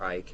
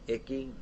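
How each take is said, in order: First: The name has one syllable, rhyming with 'bike'. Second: The name has two syllables, ending in 'ee'. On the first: This is how it is said in Europe. "You guys over in Europe call it Ike" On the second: This is how it is said here. "we call it Icky here"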